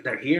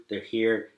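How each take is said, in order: First: "They're here?" higher, with a rise at the end; retold question. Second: Said in the usual way. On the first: Crying friend checking on help, "They're here?" rising as a question. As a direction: ask "They're here?" with the pitch lifted.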